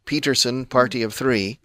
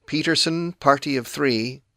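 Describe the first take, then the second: No difference in how they are said.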